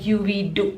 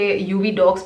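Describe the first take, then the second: First: The second word sounds like 'dew'. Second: The second word sounds like 'dogs'. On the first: The speaker calls it right. "Actual pronunciation है U V Dew" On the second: The speaker calls it wrong. "कई लोग इसे UV डॉग्स pronounce करते हैं"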